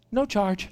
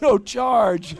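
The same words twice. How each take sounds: First: Casual driver. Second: High, louder "No charge?" in disbelief; can't believe what you just heard; stunned repeat with "No" stressed; incredulous. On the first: Driver smiling at him. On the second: Reacts to driver's offer. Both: Retold or imitated.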